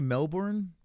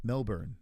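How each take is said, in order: First: "Melbourne" read with a full "bourn" ending, rhyming with born; full Mel-born. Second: "Melbourne" with a weak, short second syllable, like Mel-bun; Aussie Mel-bun. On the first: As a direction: say "Melbourne" as Mel-born, stressing both syllables clearly. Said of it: "got me into saying Melbourne". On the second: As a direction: say "Melbourne" the Australian way, swallowing the ending. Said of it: "the appropriate way to say it". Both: Shown as a demonstration.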